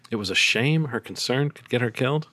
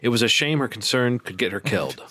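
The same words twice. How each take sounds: First: "killed?" rising as a question; questioning rise. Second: Said in the usual way. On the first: Shown as a demonstration. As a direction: end on "killed" with a puzzled upturn. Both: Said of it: "I think I said it was".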